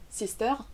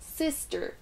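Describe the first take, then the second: First: The first syllable is not stressed. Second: The first syllable is stressed. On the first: The speaker calls it wrong. "je ne dis pas sister" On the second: The speaker calls it right. "La première syllabe là est prononcée"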